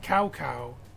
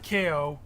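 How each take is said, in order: First: The name is said like 'cow cow'. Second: The name is said as a short 'Ko'. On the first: "not Cow Cow" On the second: "Not K O"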